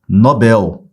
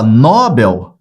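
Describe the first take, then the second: First: The stress is on the last syllable. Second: The stress is on the first syllable. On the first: The speaker calls it right. "A pronúncia dela é Nobel. ... Essa palavra é uma oxítona" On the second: The speaker calls it wrong. "você vai ter uma paroxítona terminada em L"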